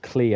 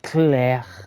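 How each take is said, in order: First: The name ends in a plain 'ee' vowel. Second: The name ends with a rough sound in the throat. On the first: "Not Clee as in Glee" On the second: "Like a like a hawk at the back of the throat"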